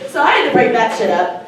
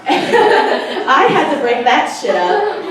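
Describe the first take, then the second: First: Said in the usual way. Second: Slow, laughing through the words. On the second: Real, not acted. Telling the crowd about the fight, laughing slowly. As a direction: chuckle it out slowly.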